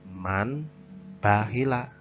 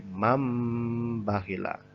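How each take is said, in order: First: A clear n sound comes before the b. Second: A nasalized m sound comes before the b. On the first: The speaker calls it wrong. "bukan man bahila" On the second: The speaker calls it right. "tapi mambakhila"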